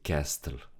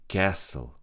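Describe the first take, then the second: First: The T is pronounced. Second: The T is not pronounced. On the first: The speaker calls it wrong. "We don't say castle" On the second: The speaker calls it right. "We don't read the T"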